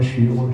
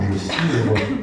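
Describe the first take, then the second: First: It is said in a flat, gloomy voice. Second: It is said in a bright, happy voice.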